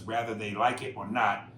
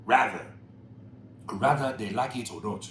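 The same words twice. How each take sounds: First: Said in the usual way. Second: "rather" singled out and stressed; pointed misreading. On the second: Shown as a demonstration. Host picking at the email's wording, stress on "rather". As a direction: lean on the wrong word "rather". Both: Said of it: "when it should be whether".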